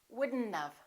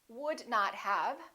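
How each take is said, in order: First: The words are contracted into wouldn't have. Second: Each word is said fully and separately.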